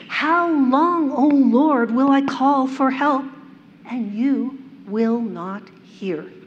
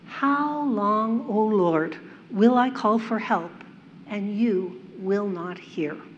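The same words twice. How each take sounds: First: It is read loudly with frustration. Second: It is read softly and gently. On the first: The speaker calls it right. "Imagine it loud and full of frustration and desperation" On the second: The speaker calls it wrong. "my soft, feminine voice really does this verse justice"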